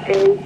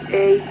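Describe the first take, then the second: No difference in how they are said.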